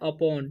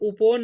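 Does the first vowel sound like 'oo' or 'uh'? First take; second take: uh; oo. First: The first vowel sounds like 'uh'. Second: The first vowel sounds like 'oo'. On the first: The speaker calls it right. "इसे पढ़ना है अपोन" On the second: The speaker calls it wrong. "इसे उपोन नहीं पढ़ना है"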